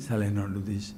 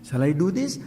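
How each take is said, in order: First: "Shall I not do this?" much lower and softer, doubtful; the hesitant half of the inner debate; doubting answer. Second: Rising, tempted "Shall I do this?" in a normal voice; eager half of the inner debate; hopeful question. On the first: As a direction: answer yourself in a low, hesitant voice. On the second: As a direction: ask it as the side that wants to. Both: Acted. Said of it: "Hamletian human conflict".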